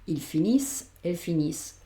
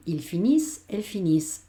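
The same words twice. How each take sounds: First: Finissent ending crisply on a plain S; ending on S sound. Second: Il finissent said il finiss, ending on S; silent ENT. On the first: Teacher repeats plural for students: finissent ends on S. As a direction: say finissent as finiss, nothing after the S. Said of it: "acabamos en el sonido S". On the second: Teacher models plural for students: finissent ends on S. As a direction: finissent with the E N T dropped, a hissed S at the end. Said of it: "no la pronuncio". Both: Shown as a demonstration.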